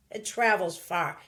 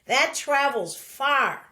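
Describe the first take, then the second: First: Said in the usual way. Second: "that travels far" said louder and slowly, each word leaned on; the first, emphatic take of the phrase. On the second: Shown as a demonstration. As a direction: push "that travels far" out strong and slow.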